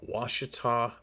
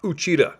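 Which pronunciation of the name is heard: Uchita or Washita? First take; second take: Washita; Uchita. First: The name is said as Washita. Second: The name is said as Uchita. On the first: The speaker calls it right. "I finally pronounced that one correctly" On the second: The speaker calls it wrong. "not Uchita"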